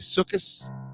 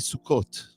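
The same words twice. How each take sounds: First: It is said with a Hungarian accent. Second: It is said with a Moroccan accent.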